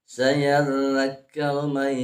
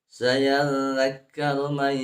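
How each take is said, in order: No difference in how they are said.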